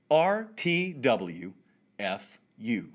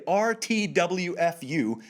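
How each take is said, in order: First: R T W F U very slowly, letter by letter; spelled out slowly. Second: Said in the usual way. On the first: Shown as a demonstration. Host spells the acronym for those who don't know it, slowly. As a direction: draw out R T W F U with gaps between the letters. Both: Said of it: "let me say it slowly".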